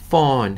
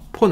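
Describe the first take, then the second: First: The word begins with an F sound. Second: The word begins with a P sound. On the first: The speaker calls it right. "P-H는 우리 어떻게 발음되냐면 F 발음 나요" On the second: The speaker calls it wrong. "폰 아니고"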